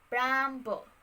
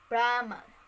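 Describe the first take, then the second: First: A b sound is heard after the m. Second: There is no b sound after the m. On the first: This is the later form with an added sound. "in the early modern English pronunciation" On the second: This is the older form of the word. "In the Old English pronunciation"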